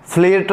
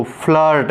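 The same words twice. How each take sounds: First: फ्लर्ट misread as 'fleert', ee vowel; spelling-style 'flirt' with an ee; wrong reading of flirt. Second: फ्लर्ट with a short 'uh' vowel; i sounded as uh in फ्लर्ट; correct reading of flirt. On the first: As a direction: say फ्लर्ट with i sounded as ee. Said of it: "नहीं पढ़ना है इसको". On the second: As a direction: say फ्लर्ट as 'flurt'. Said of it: "आई का pronunciation अ". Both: Shown as a demonstration.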